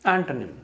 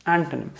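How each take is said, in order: Both takes have the same delivery.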